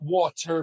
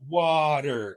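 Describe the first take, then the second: First: The middle T is a full, clear T. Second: The middle T is a quick flap. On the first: The speaker calls it wrong. "it's not water" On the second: The speaker calls it right. "but water"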